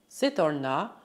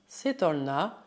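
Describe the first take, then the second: The two takes are said the same way.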